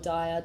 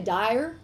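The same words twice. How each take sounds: First: It is said in an Australian accent. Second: It is said in an American accent.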